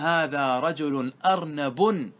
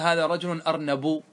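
First: The last word ends with an added n sound. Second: The last word ends without an added n sound. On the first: The word is treated as declinable. The speaker calls it right. "بالتنوين" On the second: The word is treated as indeclinable. The speaker calls it wrong. "لا يجوز"

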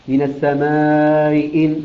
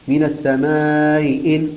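The two takes are said the same way.

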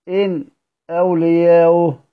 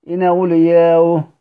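First: A brief silent pause comes before the second word. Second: The glottal stop is dropped and the words merge. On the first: "مع السكت" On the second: "ومع النقل"

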